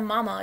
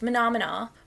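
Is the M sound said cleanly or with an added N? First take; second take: cleanly; added N. First: The M sounds are said plainly and cleanly. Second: Each M comes out blended with an N. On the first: The speaker calls it right. "instead of mama" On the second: The speaker calls it wrong. "she cannot say the M sound correctly"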